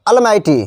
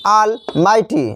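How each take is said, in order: First: Said in the usual way. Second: "almighty" pulled apart as all, mighty; split into two words. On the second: Shown as a demonstration. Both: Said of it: "इसका भी संधि विच्छेद है".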